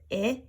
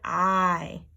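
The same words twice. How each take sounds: First: The vowel is short, like the sound in kit. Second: The vowel is long, like the sound in kite. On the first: "short vowel" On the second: "long vowel"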